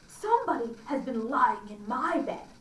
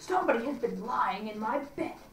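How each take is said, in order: First: A middle, ordinary bear voice. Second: A great rough, gruff bear voice.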